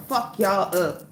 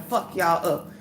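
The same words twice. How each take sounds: The two takes are said the same way.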